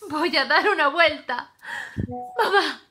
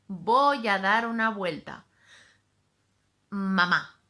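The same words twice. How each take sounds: First: It is said sadly, with tormented breathing. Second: It is said in a neutral tone.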